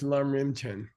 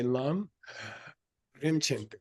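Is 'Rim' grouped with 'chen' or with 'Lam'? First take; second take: with Lam; with chen. First: Rim is grouped together with Lam. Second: Rim is grouped together with chen. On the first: The speaker calls it wrong. "You can't read it as" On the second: The speaker calls it right. "You got to say ... the Rim doesn't apply to Lam"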